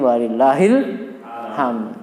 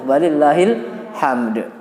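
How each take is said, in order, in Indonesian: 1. Bunyi d di akhir tidak dibaca. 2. Bunyi d di akhir dibaca. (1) "dale hilang jadi walillahil hamd" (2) "itu masih ada satu huruf"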